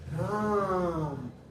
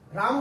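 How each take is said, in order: First: The vowel is drawn out very long. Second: The vowel is held for normal length. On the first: "यानी लंबा ले रहा है" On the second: "हम लोग ऐसे बोल सकते हैं"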